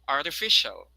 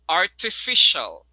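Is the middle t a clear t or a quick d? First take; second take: quick d; clear t. First: The middle t sounds like a quick d. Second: The middle t is a clear t. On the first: "the next one is American" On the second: "the first version is the British"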